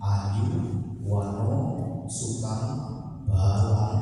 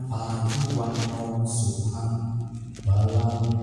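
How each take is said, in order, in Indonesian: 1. Vokalnya dipanjangkan. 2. Vokalnya dibiarkan pendek. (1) "mengucapkan empat kata tersebut tetapi salah" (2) "artinya bagus"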